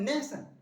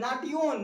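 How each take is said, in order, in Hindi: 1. बीच का व्यंजन 'sh' की आवाज़ है। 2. बीच का व्यंजन सादा 't' की आवाज़ है। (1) "टी आई ओ एन का साउंड सन होगा" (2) "नाटियोन नहीं होता"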